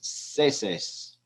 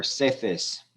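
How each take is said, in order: First: Seses with a plain S sound in both syllables; seses, hissed S in the middle; pronounced with S. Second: Seces with the middle C as a Castilian TH; seces, lisped TH in the middle; pronounced with TH. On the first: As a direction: say seses as "seh-sess". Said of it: "that will be pronounced". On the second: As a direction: say seces as "seh-thess". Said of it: "that will be pronounced seses and, or seces". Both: Shown as a demonstration.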